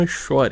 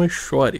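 First: The x is sounded like sh. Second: The same.

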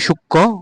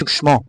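First: It is said with the Bengali pronunciation. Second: It is said with the Sanskrit pronunciation. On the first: "Bangla ভাষায় পড়ি সূক্ষ্ম" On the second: "আর সংস্কৃত হবে সূক্ষ্ম"

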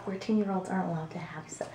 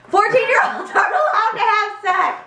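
First: It is said at a quieter volume. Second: It is said at a louder volume.

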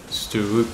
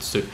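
First: The double o is read as two sounds. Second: The double o is read as one sound. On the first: The speaker calls it wrong. "We don't read it stoop" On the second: The speaker calls it right. "We read stoop"

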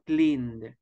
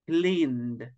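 The two takes are said the same way.

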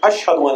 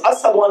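First: The middle consonant is an sh sound. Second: The middle consonant is a plain s sound. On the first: This is how it is received by God. "Allah hears" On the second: This is how the speaker actually says it. "While Bilal says"

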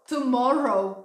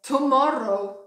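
No difference in how they are said.

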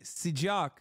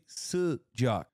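First: The first vowel is a plain 'ee' sound. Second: The first vowel is an unrounded back vowel. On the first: The speaker calls it wrong. "he's saying sijak with an I" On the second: The speaker calls it right. "it's supposed to be sijak"

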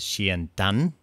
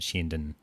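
First: The unstressed final vowel is full. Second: The unstressed final vowel is barely heard. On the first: The speaker calls it wrong. "It probably wouldn't have been said as Sheendan" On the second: The speaker calls it right. "a really sort of minimal sound, a minimal vowel there"

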